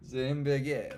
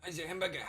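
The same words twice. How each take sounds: First: Loud, hammed-up French accent; French-sounding accent. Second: High-pitched attempt at a German accent. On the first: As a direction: attempt German, land on French accent. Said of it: "it's French". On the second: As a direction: have a go at a hammed-up German accent. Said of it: "it's German accent".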